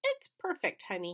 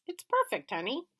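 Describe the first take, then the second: First: Imitating father. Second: Much higher, tender and pleased; father, smiling. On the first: Little boy imitating his father. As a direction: parrot dad sweetly. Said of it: "imitating my father". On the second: Father answering wife, pleased. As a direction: agree fondly. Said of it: "smiled back and said". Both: A narrator's reading.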